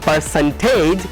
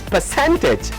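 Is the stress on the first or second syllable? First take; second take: first; second. First: The stress is on the first syllable. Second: The stress is on the second syllable. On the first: The speaker calls it wrong. "This one is not percentage" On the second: The speaker calls it right. "Percent has got a stress"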